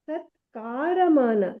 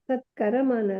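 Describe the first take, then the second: First: The second syllable has a long vowel. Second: The second syllable has a short vowel. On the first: The speaker calls it right. "ದೀರ್ಘ ಇರೋ ಕಡೆ ದೀರ್ಘ ಹೇಳಿಲ್ಲ" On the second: The speaker calls it wrong. "ಸತ್ಕರಮಾನ ಅಲ್ಲ"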